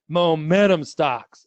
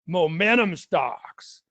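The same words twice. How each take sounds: First: It is said in his normal voice. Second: It is said in a booming monster-truck announcer voice.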